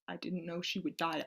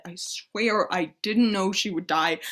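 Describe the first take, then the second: First: Hushed, voiceless confession; guilty whisper. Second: Didn't leaned on hard, voice back up from the whisper; pleading stress on didn't. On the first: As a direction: whisper it as if afraid to admit it. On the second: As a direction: swear it, pushing on didn't. Guilty confession in prayer. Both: Acted.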